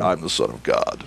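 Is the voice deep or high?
deep. It is said in a deep voice.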